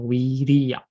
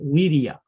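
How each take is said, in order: First: The vowel in the word is held long. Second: The vowel in the word is kept short. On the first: "with the long pronunciation" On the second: "with a short short one"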